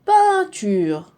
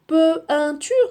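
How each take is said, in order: First: Peinture said "pain-ture", one nasal sound for EIN; Peinture, EIN as a single nasal; correct reading. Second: Peinture said as "pe-in-ture", sounding the E and the IN apart; wrong reading. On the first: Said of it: "ça se prononce pain". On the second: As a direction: mispronounce Peinture, splitting "pe-in". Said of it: "Est-ce qu'on lit peinture?". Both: Shown as a demonstration.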